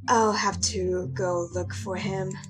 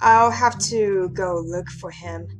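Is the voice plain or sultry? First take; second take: sultry; plain. First: It is said in a low, sultry voice. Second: It is said in a plain, ordinary voice.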